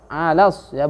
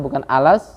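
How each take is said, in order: First: The a vowel is pronounced fully and clearly. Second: The a vowel is pronounced weakly and unclearly. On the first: The speaker calls it right. "A harus jelas" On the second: The speaker calls it wrong.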